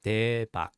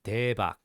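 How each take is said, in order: No difference in how they are said.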